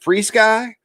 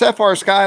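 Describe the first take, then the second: First: The first part is said as the word free. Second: The first part is spelled out as two letters. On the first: "I used to call it Free Sky. There's no E" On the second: "it's F R Sky. Let's just go with that"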